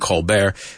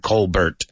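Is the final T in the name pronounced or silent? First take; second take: silent; pronounced. First: The final T is silent. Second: The final T is pronounced. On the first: The speaker calls it right. "The T is silent" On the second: The speaker calls it wrong. "It's not Stephen Colbert"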